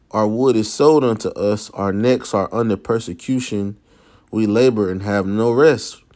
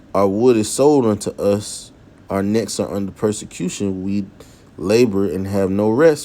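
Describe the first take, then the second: The two takes are said the same way.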